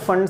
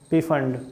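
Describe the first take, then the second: First: The word starts without any p sound. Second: The word starts with an audible p sound.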